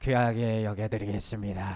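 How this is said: It sounds flat and perfunctory.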